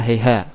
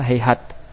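First: The word ends with an h sound. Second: The word ends with a t sound. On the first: This is a minority reading of the verse. "tak di situ dibaca dengan ha" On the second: This is the reading of the majority. "bacaan yang lain yang jumhur membaca hayhat"

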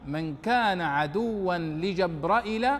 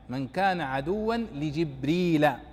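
First: The name has hamza and a short final i. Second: The name has no hamza, ending in long i. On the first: "وجبرائيل كجحمرش" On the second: "وجبريل كقنديل"

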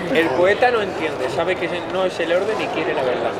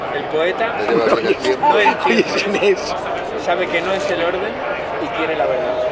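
First: The line is spoken at a quicker pace. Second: The line is spoken at a slower pace.

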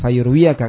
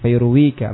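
First: The word ends in -iyaka, with a ya sound. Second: The word ends in -ika, with no ya sound. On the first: The speaker calls it wrong. "Bukan fayurwiyaka" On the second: The speaker calls it right. "Tapi gak muncul ya"

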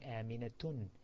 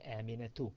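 First: The name ends with an added n sound. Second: The name ends on a plain vowel. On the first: The speaker calls it wrong. "you do not say Aminatun" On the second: The speaker calls it right. "Instead, you say Aminatu"

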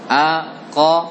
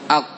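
First: The final q bounces with a short echo. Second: The final q stops flat without any bounce. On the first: The speaker calls it right. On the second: The speaker calls it wrong. "Janganlah dibaca"

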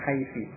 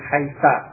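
First: The word ends in an i vowel. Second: The word ends in an a vowel. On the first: This is another dialect form of the word. "menjadikan mabni dengan kasrah" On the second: This is a dialect form of the word. "menjadikan dia tetap dengan fathah"

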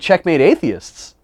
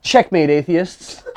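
First: It is said in an excited tone. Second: It is said in a plain, matter-of-fact tone.

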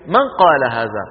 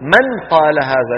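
First: The n blends straight into the following q. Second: The n is pronounced clearly before the q. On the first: The speaker calls it right. "فالعربي في بيته يقول" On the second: The speaker calls it wrong. "ما يقول العربي من قال هذا، لا يقرع بلسانه حرف النون"

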